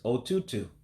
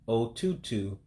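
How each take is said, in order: First: It is said at normal speed. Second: It is said slowly.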